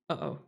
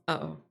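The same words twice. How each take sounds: The two takes are said the same way.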